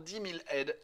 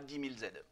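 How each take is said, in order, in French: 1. Il n'y a pas de liaison en z avant « aides ». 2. Il y a une liaison en z avant « aides ». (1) "que ce serait toujours dix mille aides" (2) "et pas dix mille Z"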